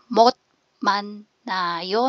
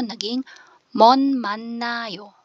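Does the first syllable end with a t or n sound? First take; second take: t; n. First: The first syllable ends with a t sound. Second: The first syllable ends with an n sound. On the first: "'pag binasa mo siya per syllable" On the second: "ang lalabas na sound dapat ay Niyen"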